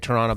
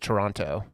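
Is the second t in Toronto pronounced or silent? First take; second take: silent; pronounced. First: The second t is dropped entirely. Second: The second t is clearly pronounced. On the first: This is how locals say it. "we say Toronto ... we just stopped pronouncing it" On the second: This is how outsiders say it. "every here everyone says Toronto"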